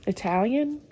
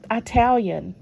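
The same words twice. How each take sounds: First: Said in the usual way. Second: "Italian" said as EYE-talian, long I at the start; mispronounced "Italian", starting with "eye". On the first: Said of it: "instead of". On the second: Retold or imitated. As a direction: say "Italian" with the first syllable as "eye". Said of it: "He says I T I E a lot instead of".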